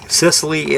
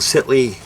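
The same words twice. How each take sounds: First: Sicily in three clear syllables; Sicily said again in full, Sis-uh-lee; careful pronunciation. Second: Sicily slurred into "Sitly"; slurred pronunciation. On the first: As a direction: sound out the middle of Sicily, higher. Repeats the word to correct it. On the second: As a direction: swallow the middle syllable of Sicily. Slips, then repeats the word corrected. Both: Real, not acted.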